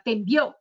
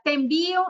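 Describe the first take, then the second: First: "envió" stressed on the final syllable, en-VIÓ; stress on envió's O. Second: "envío" stressed on the middle syllable, en-VÍ-o; stress on envío's I. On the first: Autocorrect's mistaken version, stress on the final ó of "envió". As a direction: land on the ó at the end of "envió". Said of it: "con la tilde en la O". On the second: Coworker writing to a client, stress on the í of "envío". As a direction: lean on the í in "envío", leaving the final o weak. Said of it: "Envío tiene tilde en la I". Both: Shown as a demonstration.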